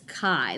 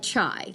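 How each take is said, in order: First: The word begins with a k sound. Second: The word begins with a ch sound. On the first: The speaker calls it right. "It's chi, like yippee-ki-yay" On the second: The speaker calls it wrong. "like chai, like don't say it like T"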